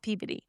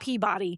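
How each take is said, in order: First: The name is said the local Massachusetts way. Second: The name is said just as it is spelled. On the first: The speaker calls it right. "but it's pronounced Peabody" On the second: The speaker calls it wrong. "It looks like Peabody"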